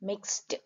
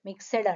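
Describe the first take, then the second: First: The final consonants form one tight cluster. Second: An extra vowel splits the final consonants. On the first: The speaker calls it right. "ఇక్కడ cluster ఉంది చూడండి" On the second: The speaker calls it wrong. "Telugu ఎక్కువ మాట్లాడే వాళ్ళు ఏం మిక్సెడ్ మిక్సెడ్ అంటారు"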